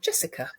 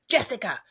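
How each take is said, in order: First: The name is said at normal volume. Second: The name is said loudly.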